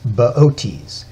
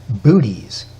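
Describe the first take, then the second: First: The name does not sound like 'booties'. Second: The name sounds like the word 'booties'. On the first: The speaker calls it right. "but it's Boötes" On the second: The speaker calls it wrong. "you'd want to pronounce it Booties"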